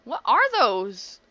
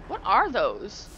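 First: Even louder and slower, stretched out in disbelief; louder disgusted question. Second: A louder, drawn-out what are those; asking, creeped out and slow; disgusted slow question. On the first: Asking again about the weird aliens, louder and appalled. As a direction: push the repeat up in horrified disbelief. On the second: Seeing strange aliens, a loud creeped-out question. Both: Real, not acted.

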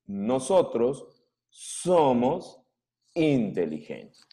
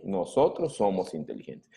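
First: Each word set apart by a pause; slow word by word. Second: Said in the usual way. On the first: Shown as a demonstration. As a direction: say it word by word, slowly. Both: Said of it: "¿Qué cosa quiere decir eso?".

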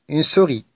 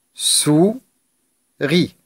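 First: Said in the usual way. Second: "souris" as sou, long pause, ris; split into syllables. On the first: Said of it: "on va découper les mots". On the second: Shown as a demonstration. Teacher cutting words for pupils, "souris" syllable by syllable. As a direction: hold "sou", wait, then finish "souris". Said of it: "découper les mots en syllabes".

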